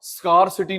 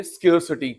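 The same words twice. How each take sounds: First: स्कार्सिटी with a long "skaar" like scar, the wrong way; wrong pronunciation. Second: स्केयरसिटी said "skair-si-ty" with the vowel of care; correct pronunciation. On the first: Teacher showing students the wrong way to say it. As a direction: say स्कार्सिटी as "skaar-si-ty", the mistake to avoid. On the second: Teacher giving students the right way to say it. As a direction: say स्केयरसिटी as "skair-si-ty", not like scar. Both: Shown as a demonstration. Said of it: "स्कार्सिटी नहीं बोलेंगे".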